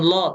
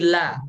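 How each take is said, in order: First: The syllable is heavy, with a rounded vowel. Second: The syllable is thin, with an open vowel. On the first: The speaker calls it wrong. "jangan lo" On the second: The speaker calls it right. "tapi la ... huruf lam itu tipis"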